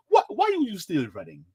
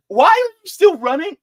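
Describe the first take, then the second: First: Put-on African accent, higher pitch; best African accent. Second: High, loud incredulous demand; exasperated outcry. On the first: Asking Nikki why she's still running, in an African accent. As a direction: ask it in a mock African accent. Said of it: "in my best African accent". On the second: Acted. Asking Nikki why she is still running, loudly exasperated. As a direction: cry it out in disbelief.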